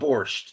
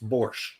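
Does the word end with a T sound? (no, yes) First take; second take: yes; no. First: The word ends with a T sound. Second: The word ends without a T sound. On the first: The speaker calls it wrong. "It's not borscht" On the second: The speaker calls it right. "there is no T in borscht"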